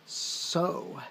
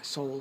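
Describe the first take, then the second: First: The syllable ends on the vowel, no L. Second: The syllable ends with a clear L sound. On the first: "or so" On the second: "many people pronounce it soul"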